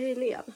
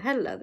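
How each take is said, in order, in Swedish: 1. E-vokalen i namnet är utdragen. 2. E-vokalen i namnet är kort. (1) "Hur ska jag veta att E ska liksom dras lite till?" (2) "Jag läste ju Helen"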